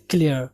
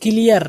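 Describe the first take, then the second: First: "کلیئر" with kl run together, kli-er; "کلیئر" as tight kli-er; English clear. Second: "کلیئر" as ki-li-yar, vowel inside the kl; "کلیئر" with a split first cluster; Urdu-style clear. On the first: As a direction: say "کلیئر" the English way, no vowel between k and l. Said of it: "but English میں کلیئر". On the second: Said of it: "کلیئر Urdu میں ہے". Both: Shown as a demonstration.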